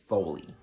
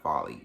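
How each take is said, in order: First: "Foley" pronounced FOH-lee, not like folly; long O in Foley. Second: "Folly" pronounced to rhyme with jolly; short vowel in Folly. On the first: Book reviewer working out an author's surname, "Foley" as FOH-lee. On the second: Book reviewer ruling out a misreading, "Folly" as FAH-lee. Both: Shown as a demonstration. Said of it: "It's not Folly".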